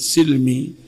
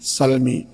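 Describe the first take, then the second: First: The first vowel is a close 'i' sound. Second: The first vowel is an open 'a' sound. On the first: A minority of reciters read it this way. "bi kasri sin" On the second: Most reciters read it this way. "mayoritas para qurra membacanya bi fathhi sin"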